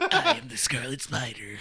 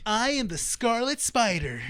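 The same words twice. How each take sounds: First: Slow mock-heroic intro through laughter; drawn-out dramatic announcement, half laughing; overdramatic superhero. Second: Slow, drawn-out hero announcement; mock-dramatic superhero intro, stretched out; hammy slow declaration; overdramatic superhero. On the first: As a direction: imitate the hammy hero, amused. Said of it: "imagine him saying it like that". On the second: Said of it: "want him to be over dramatic".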